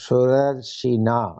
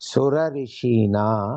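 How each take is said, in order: First: The 'rishi' part is merged into one word. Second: The 'rishi' part is pronounced fully and separately. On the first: "as one word" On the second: "You can also pronounce because it is indicating rishi"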